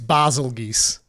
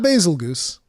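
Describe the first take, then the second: First: The last syllable sounds like 'geese'. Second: The last syllable sounds like 'goose'. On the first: The speaker calls it right. "it's Basil Geese" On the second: The speaker calls it wrong. "It's not Basil Goose"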